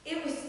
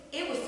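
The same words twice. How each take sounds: The two takes are said the same way.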